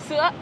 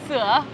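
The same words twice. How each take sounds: First: It carries the broken rising ngã tone. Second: It carries the dipping hỏi tone. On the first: It means milk. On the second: It means fix.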